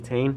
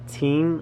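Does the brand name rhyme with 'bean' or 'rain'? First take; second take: rain; bean. First: The vowel sounds like the one in 'rain'. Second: The vowel sounds like the one in 'bean'. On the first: This is the actual pronunciation. The speaker calls it right. "but it's actually Tane" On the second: This is how other people say it. The speaker calls it wrong. "Other people say Teen"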